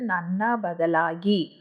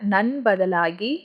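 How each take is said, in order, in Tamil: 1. முதல் சொல் முழுசா, ரெண்டு அசை சொல்றாங்க. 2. முதல் சொல் ஒரு அசையா சுருக்கி சொல்றாங்க. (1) "எனக்கு பதிலாகன்றதுக்கு நன்னா பதிலாகி" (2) "இந்த நன்னான்றத ஸ்போக்கன்ல நன் பதிலாகி"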